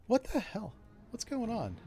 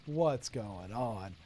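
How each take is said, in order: First: Sudden puzzled "What's going on?" asked a bit higher; real surprise. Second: "What's going on?" drawn out very slowly, lower and softer; mock bewilderment. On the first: Real, not acted. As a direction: caught off guard, asking what's happening. Startled by missed shots in game. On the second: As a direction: play the stunned voter in slow disbelief. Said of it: "I was like".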